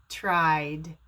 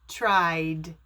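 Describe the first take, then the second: The two takes are said the same way.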